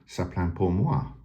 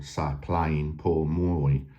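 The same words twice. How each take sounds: First: It is said with a French accent. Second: It is said with an English accent.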